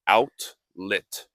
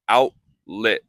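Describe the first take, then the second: First: The T is clearly pronounced. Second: The T is nearly silent. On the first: "and not outlet" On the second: "more silent T"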